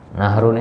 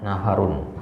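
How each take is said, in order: First: No vowel is heard between h and r. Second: An a vowel is heard between h and r.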